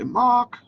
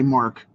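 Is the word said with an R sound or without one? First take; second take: without R; with R. First: The word is said without an R sound. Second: The word is said with an R sound. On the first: This is how many other people pronounce it. "a lot of people say Mach" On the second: This is the speaker's own pronunciation. "I say Mark"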